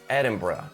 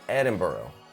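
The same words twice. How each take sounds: First: The ending sounds like bruh. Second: The ending sounds like neither burg nor bruh. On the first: The speaker calls it right. "as in bruh" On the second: The speaker calls it wrong. "who like to think that they know better than others"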